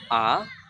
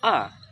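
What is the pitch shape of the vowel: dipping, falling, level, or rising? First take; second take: rising; falling. First: The pitch rises from mid to high. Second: The pitch falls sharply from high. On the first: "ada naik garis" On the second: "yang terakhir turun"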